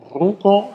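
The middle consonant is a hard k sound. "da sehen Sie K"

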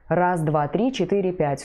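The low voice sounds resonant and ringing. The speaker calls it right. "Но он озвучен при помощи резонаторов головы и груди"

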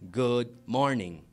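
The greeting is flat and cold, with little melody. "It's like so cold, so straightforward"

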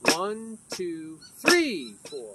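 The numbers one and three are stressed. "Now I'm going to do the 1 and 3"

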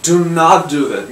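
It is said angrily with every word separate. The speaker is angry and insists. "мы сердиты, angry"

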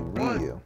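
The name is said with a Japanese pronunciation. "I think Japanese people say Ryu"

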